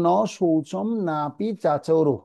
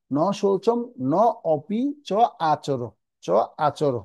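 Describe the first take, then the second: First: নাপি চাচরো with the words merged; joined as written. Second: ন, অপি, চ, আচর as separate words with gaps; broken word by word. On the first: Teacher reading it as printed, নাপি চাচরো joined. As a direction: run নাপি and চাচরো each together, long a. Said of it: "যেভাবে শ্লোক গীতায় লেখা আছে". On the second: Teacher splitting the joined words, ন অপি চ আচর piece by piece. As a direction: pause between ন and অপি, চ and আচর. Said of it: "যখন ভেঙে ভেঙে বলবো". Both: Shown as a demonstration.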